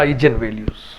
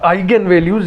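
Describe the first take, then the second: First: The middle consonant is a j sound. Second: The middle consonant is a hard g sound.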